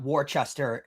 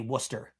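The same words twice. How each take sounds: First: The name is sounded out as it is spelled. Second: The name is said in a shortened local form. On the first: This is how the name is written. "the city is spelled out Worcester" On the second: This is how locals say the name. "they say Worcester"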